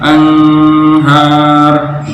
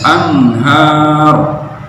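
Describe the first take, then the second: First: The n is muffled and nasalized. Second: The n is pronounced clearly. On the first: The speaker calls it wrong. "nggak boleh anhar" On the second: The speaker calls it right. "harus dibaca jelas juga"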